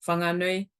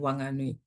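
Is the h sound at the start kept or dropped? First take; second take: kept; dropped. First: The h sound at the start is pronounced. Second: The h sound at the start is dropped. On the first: It follows the speaker's own dialect. "whanganui is what I would say" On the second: It follows the Taranaki or Whanganui dialect. "So dropping that H"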